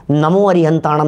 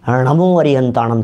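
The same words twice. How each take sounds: First: नमो said with a plain dental n, as in नम; नमो with ordinary न, the incorrect way; wrong pronunciation. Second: नमो begun with retroflex ण, tongue curled back; correct Prakrit pronunciation. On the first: Preacher shows listeners the mistaken नमो with dental न. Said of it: "नहीं चलेगा". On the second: Preacher demonstrates to listeners the correct णमो with retroflex ण. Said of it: "चलेगा". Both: Shown as a demonstration.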